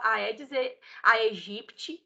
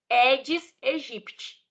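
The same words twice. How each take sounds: First: Each word starts with an 'ah' before the 'eh'. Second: Each word starts with only an 'eh' sound. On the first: The speaker calls it wrong. "Se você falava Aedes aegypti, não fala mais, porque é errado" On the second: The speaker calls it right. "a gente só fala o som do E. ... É a forma correta de falar"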